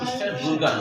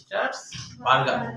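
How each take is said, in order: First: The vowel after b sounds like 'oo'. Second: The vowel after b sounds like 'ah'. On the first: The speaker calls it wrong. "Star বুর্গার না" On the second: The speaker calls it right. "বার্গার উচ্চারণটা আসলে বার্গার"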